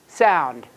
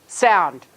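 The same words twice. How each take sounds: Both takes have the same delivery.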